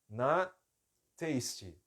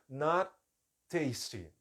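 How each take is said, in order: First: There is a pause between the two words. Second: There is a pause between the two words.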